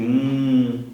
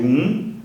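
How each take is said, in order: First: It is drawn out, like a thinking sound. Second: It is said short, like the number one.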